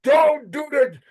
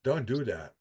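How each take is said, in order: First: Higher and louder, a half-laughing warning; emphatic warning. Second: Soft, low, resigned warning; quiet warning. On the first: Warning his friend off chewing gum, loud and high. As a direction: call it out like a friendly alarm. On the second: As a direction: say it quietly, almost to yourself. Repeated warning, softer, lower. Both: Real, not acted.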